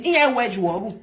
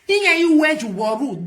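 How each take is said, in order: First: Said in the usual way. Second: "Iye wedge waru" drawn out very slowly, a bit louder; slow emphatic repeat. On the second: Shown as a demonstration. Slow, pointed repeat at the careless talker. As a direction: spell it out word by word to drive it home.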